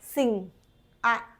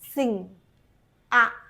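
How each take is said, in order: The two takes are said the same way.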